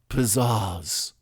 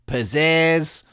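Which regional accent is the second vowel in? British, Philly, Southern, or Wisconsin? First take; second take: British; Wisconsin. First: The second vowel has a British-style ah sound. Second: The second vowel has a Wisconsin-style eh sound. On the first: "the British ah" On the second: "the Wisconsin eh"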